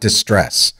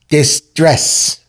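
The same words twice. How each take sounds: First: It is said as the ordinary word distress. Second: It is said to sound like 'dis dress'. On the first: The speaker calls it wrong. "It's not distress" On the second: The speaker calls it right. "It's distress"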